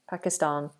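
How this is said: The last syllable has a long ah sound. "we Brits say Pakistan"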